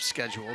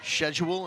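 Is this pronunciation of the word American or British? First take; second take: American; British. First: The word is said in an American accent. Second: The word is said in a British accent. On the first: "instead of" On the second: "she can act like she's from Great Britain"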